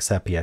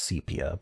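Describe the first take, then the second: First: The first vowel is a short E sound. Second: The first vowel is a long E sound. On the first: The speaker calls it wrong. "I can't stop myself from saying sepia because that's what it looks like" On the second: The speaker calls it right. "I do think the proper pronunciation is sepia"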